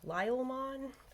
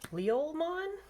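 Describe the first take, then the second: First: The name begins with the sound 'Lyle'. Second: The name begins with the sounds 'Leo'. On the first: This is a joking nickname. The speaker calls it wrong. "I've been calling him Lyle for funsies" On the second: This is believed to be the correct name. The speaker calls it right. "I think it's Leolmon"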